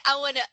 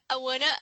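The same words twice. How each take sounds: The two takes are said the same way.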